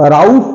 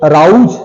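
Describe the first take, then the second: No difference in how they are said.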